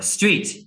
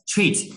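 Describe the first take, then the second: First: Said in the usual way. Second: "treat" for street, the first S left off; child's mispronunciation "treat", missing the opening S; dropped S. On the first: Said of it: "for example". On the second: Retold or imitated. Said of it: "she would leave off the S at the beginning".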